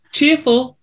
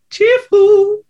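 First: Cheerful. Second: Very high-pitched "cheerful"; exaggerated cheerful. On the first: Acted. Lists the vassals' qualities, acting cheerful. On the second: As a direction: send "cheerful" soaring up high.

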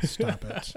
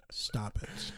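First: A playful stern telling-off; mock scolding. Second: Whispered playful telling-off; mock whisper. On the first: Joking with his cohost, he mock-scolds the IPAs aloud. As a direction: pretend to scold the beers. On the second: Joking with his cohost, he whispers a mock scold at the IPAs. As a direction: hush the beers in a stage whisper.

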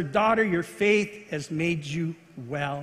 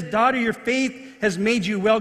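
First: Tender. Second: Said in the usual way. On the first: Retold or imitated. Jesus's healing words to woman.

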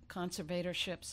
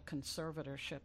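First: "conservatorships" with a long "ay" in -vator-; the other pronunciation. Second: "conservatorship" stressed on SER, short weak -va-; own pronunciation. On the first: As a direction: say "conservatorships" as CON-ser-VAY-tor-ships. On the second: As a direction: say "conservatorship" as con-SER-vuh-tor-ship. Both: Shown as a demonstration.

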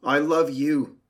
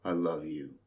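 First: Higher and louder, swelling like the sea. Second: Lower, softer voice for the earth. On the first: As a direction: lift it up, bright and loud, as the sea. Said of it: "said the sea to the earth". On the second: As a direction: speak it low and grounded as the earth. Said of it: "said the earth to the sea". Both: Acted.

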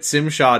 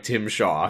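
First: "Tim" begun with an s sound, like "Sim"; alien pronunciation. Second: Said in the usual way. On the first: Shown as a demonstration. Co-host arguing over the alien name, "Tim" said as "Tsim". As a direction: say "Tim Shaw" as "Tsim Sha". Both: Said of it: "does not sound like Tim Shaw".

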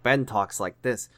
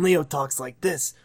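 First: A hint of a character's voice; Ben. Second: Lightly voiced impression, lifted a little; a hint of a character's voice; Leo. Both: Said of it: "Steve's voice is just Ben and Leo's voice mixed together".

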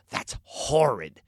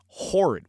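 First: Slow "That's horrid" with the H of "horrid" breathed out strongly; aunt's "horrid", the H pushed out with extra breath; imitating aunt's horrid. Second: Said in the usual way. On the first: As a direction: lean on the breathy H in "horrid", drawn out. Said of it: "She'd, like, emphasize the H". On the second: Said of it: "there's a word we don't use".

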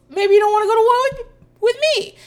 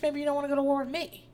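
First: Much higher, louder, fast mock comeback; hammed-up high squeal of a retort; overdone comeback. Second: Quick, offhand mock retort; casual comeback. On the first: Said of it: "I didn't perform them correctly". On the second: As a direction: toss it back lightly, not shouting. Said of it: "Carla is like".

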